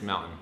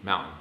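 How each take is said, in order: First: The middle T is dropped. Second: The middle T is dropped.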